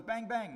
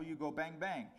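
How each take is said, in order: First: High, loud mock gunfire shout; shouted bang. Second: Said in the usual way. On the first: Soldier at enemy in war game, loud mock shout. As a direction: yell it like a kid playing soldier. Soldier firing pretend rifle. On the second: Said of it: "they informed the men".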